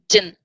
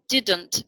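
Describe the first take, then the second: First: The d and t sounds are dropped. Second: All sounds of the word are pronounced fully. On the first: "d, and t tend to disappear" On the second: "you look at didn't"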